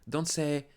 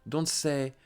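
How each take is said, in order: Both takes have the same delivery.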